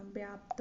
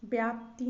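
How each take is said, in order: First: व्याप्त without final i, softer; correct pronunciation. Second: व्याप्ति ending in i, loud; wrong pronunciation. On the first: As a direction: finish व्याप्त on a bare t. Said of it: "होता है". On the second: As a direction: finish व्याप्ति on a ti. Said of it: "नहीं होता". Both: Shown as a demonstration.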